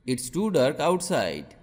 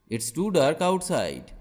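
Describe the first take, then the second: No difference in how they are said.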